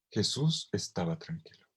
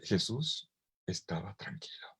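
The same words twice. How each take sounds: First: Said in the usual way. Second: Hushed breathy whisper of calm. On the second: Shown as a demonstration. Preacher whispers to the congregation about the sleeping Jesus. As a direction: whisper it as if not to wake him.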